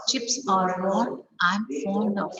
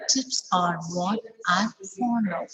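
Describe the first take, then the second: First: "of" at the end said full and clear; strong form of. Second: Final "of" fully pronounced, falling tune; sentence-final "of" kept strong, not reduced; strong form of. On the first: Teacher modelling the strong "of" to students. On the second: Teacher repeating the strong "of" example. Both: Shown as a demonstration. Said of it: "Of. It's at the end".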